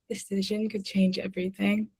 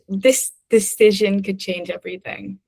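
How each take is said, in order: First: It is said very softly. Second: It is said at normal volume.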